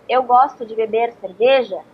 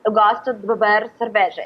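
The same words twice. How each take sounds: First: Native Brazilian Portuguese with full vowels; Brazilian rhythm. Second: Portuguese in a North American accent, full of schwas; quicker, less varied North American rhythm. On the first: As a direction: Brazilian Portuguese, syllables rising and falling. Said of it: "if a Brazilian says". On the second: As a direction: imitate an American speaking Portuguese, vowels reduced. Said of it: "North American person would say". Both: Shown as a demonstration.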